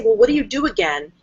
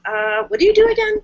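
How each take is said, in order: First: Said in the usual way. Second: A hint of a confused customer; baffled question. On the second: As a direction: question pitched much higher, mock bewildered. Confused site visitor asks.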